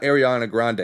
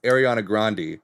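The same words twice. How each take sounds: First: "Grande" said grand, with no final vowel; wrong pronunciation. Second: "Grande" said GRAHN-dee, two syllables; correct pronunciation. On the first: Host showing the common mistake, grand. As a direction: Grande clipped to one syllable, grand. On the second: Host giving the family's version, GRAHN-dee. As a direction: Grande ending in a clear second syllable. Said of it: "It's pronounced". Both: Shown as a demonstration.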